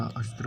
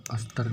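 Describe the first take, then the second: First: "अस्त्र" with a joined final cluster, as astr; correct pronunciation demo. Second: "अस्त्र" with an extra vowel, as as-tar; wrong pronunciation demo. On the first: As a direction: keep t and r together in "अस्त्र". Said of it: "अस्त्र होता है". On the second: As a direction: break the final cluster of "अस्त्र" into "-tar". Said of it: "अस्त्र नहीं होता". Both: Shown as a demonstration.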